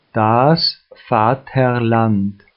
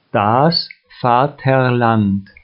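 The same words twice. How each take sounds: The two takes are said the same way.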